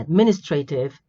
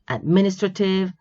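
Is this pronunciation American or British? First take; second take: American; British. First: It is said the American way. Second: It is said the British way.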